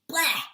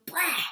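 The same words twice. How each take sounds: First: Spitting out a loud bleh. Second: Open-faced bleh, spitting it out; loud bleh. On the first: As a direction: spit it out with a big bleh. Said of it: "you're gonna spit out and go". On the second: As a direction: spit it out with a wide-open face. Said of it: "make sure you open up your whole face". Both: Shown as a demonstration.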